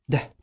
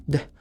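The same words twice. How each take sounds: No difference in how they are said.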